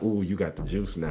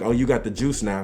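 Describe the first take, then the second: First: It sounds fearful and intimidated. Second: It sounds admiring and respectful.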